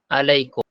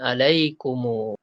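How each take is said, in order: First: The word ends on a closed m sound. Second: The word ends with an added u vowel. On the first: The final m is left without a vowel, as in a pause. "Kalau mati, sukun" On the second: The final m is joined on with a vowel. "Kalau silah, sambung jadi"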